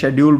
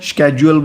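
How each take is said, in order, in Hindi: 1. यह शब्द 'sh' ध्वनि से शुरू होता है। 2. यह शब्द 'sk' ध्वनि से शुरू होता है। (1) "शेड्यूल बोलते हैं" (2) "स्केड्यूल बोलते हैं"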